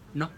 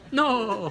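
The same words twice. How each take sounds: First: The word is said plainly, without laughing. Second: The word is said gently while laughing.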